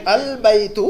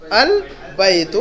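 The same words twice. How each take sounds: First: Said in the usual way. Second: البیت stretched very slowly, each sound held; teacher modelling البیت syllable by syllable; drawn-out model reading. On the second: Shown as a demonstration. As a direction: say البیت slowly and clearly for the class. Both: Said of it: "اس کو کیسے پڑھیں گے ہم؟".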